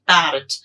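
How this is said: It is said with an Indian English accent. "in Indian English we say parrot"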